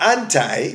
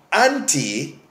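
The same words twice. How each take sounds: First: "anti" ending like the word eye; anti as "AN-tie". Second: "anti" ending in a long ee; anti as "AN-tee". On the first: Preacher giving the other pronunciation, "anti" said AN-tie. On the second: Preacher explaining the Greek prefix, "anti" said AN-tee. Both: Shown as a demonstration. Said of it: "depending on how you want to pronounce it".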